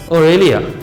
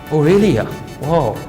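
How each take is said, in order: First: The surprise is said short and quickly. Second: The surprise is said slowly and fully.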